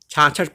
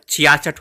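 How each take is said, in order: First: The word is pronounced as chhachhath. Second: The word is pronounced as chhiyasath. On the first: This is how people commonly say it. The speaker calls it wrong. "छाछठ पढ़ते हैं लोग" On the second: This is the standard form. The speaker calls it right. "छियासठ होता है"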